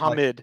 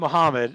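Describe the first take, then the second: First: The name is pronounced in an odd, distorted way. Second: The name is pronounced in the usual way. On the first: This imitates someone's peculiar pronunciation. The speaker calls it wrong. "it's like" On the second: This is how the name is normally said. The speaker calls it right. "like instead of Muhammad"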